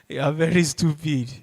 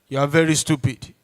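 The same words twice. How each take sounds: First: It is said in a joking, laughing tone. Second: It is said in a serious, stern tone.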